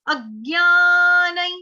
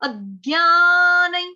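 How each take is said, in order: The two takes are said the same way.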